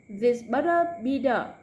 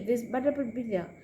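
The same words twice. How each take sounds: First: The phrase is said at a slow pace. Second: The phrase is said at a fast pace. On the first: "Slow and then later get faster" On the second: "one more time faster"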